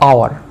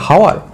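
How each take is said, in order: First: The word starts directly with a vowel sound. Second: The word starts with an audible h sound. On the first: The speaker calls it right. "আ আ clear" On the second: The speaker calls it wrong. "হাওয়ার না"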